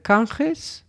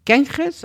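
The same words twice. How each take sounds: First: "Ganges" said KAHN-khes, with an ah; "kahn" pronunciation. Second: "Ganges" said KEN-khes, with an eh; "ken" pronunciation. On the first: Host tries a festival name one way, "kahn" pronunciation. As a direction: say "Ganges" with open ah first, questioning rise. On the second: Host tries the festival name another way, "ken" pronunciation. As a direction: say "Ganges" with eh first, higher questioning rise. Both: Real, not acted. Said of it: "I don't know how you pronounce".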